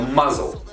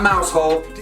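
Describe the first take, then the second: First: It sounds like the single word muzzle. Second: It sounds like the two words mouse hole. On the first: The speaker calls it right. "but muzzle" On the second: The speaker calls it wrong. "Not mouse hole"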